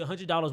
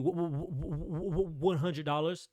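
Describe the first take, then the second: First: It sounds firm and confident. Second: It sounds hesitant and unsure. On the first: The price is stated as non-negotiable. The speaker calls it right. "you say that with confidence" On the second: The price feels uncertain or apologetic. The speaker calls it wrong. "you don't need to be like"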